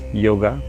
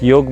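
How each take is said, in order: First: The word ends with an added ah vowel. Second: The word ends on a consonant, no final vowel. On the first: "Ah sound comes because of the limitation of English language" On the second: "Like Yog becomes Yoga"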